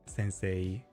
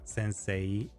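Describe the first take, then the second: No difference in how they are said.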